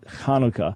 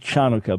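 First: It begins with a throaty, rasping 'ch' sound. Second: It begins with a soft English-style 'ch' sound. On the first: The speaker calls it right. "It's always a ch" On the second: The speaker calls it wrong. "there's no ch sound in Hebrew"

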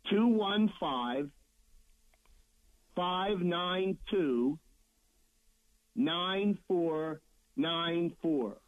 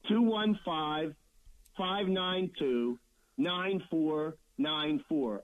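First: The number is said slowly. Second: The number is said at normal speed.

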